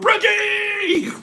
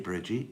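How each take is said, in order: First: The name is yelled loudly with high energy. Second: The name is said in a calm, quiet voice. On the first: The speaker calls it right. "You have to go, Bridgie!" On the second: The speaker calls it wrong. "you can't just go, hey, Bridgie"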